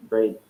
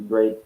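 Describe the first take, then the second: No difference in how they are said.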